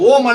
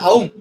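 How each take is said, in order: First: The vowel is a single long 'oh' sound. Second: The vowel glides from 'a' to 'u'. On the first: The speaker calls it wrong. "அது ஓம் அல்ல" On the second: The speaker calls it right. "அவும் அப்படிங்கறத"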